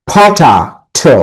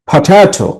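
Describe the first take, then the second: First: potato slowly broken before the last "to"; syllable by syllable. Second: potato joined up, middle "ta" raised; syllable stress. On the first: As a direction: split potato into "pota", pause, "to". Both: Shown as a demonstration. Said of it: "একটা করে হাততালি দিবে".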